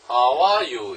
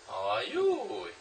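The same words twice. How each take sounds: First: The stress is on are. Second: The stress is on you.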